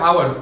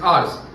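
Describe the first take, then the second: First: It is said like 'hours', with a 'w' glide. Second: It is said like 'ars', with no glide. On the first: The speaker calls it wrong. "लोग क्या बोलते हैं आवर्स, आवर्स नहीं होता" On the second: The speaker calls it right. "It's आर्स"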